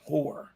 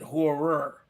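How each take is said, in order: First: The name is said with one syllable. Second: The name is said with two syllables. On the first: The speaker calls it right. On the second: The speaker calls it wrong. "I tried to pronounce it horror, but no"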